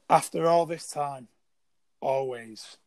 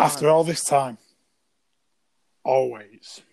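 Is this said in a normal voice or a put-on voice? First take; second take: normal; put-on. First: It is said in the speaker's normal voice. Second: It is said in a put-on character voice. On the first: "I can't do the voice" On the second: "I tried doing the voice, it didn't go well"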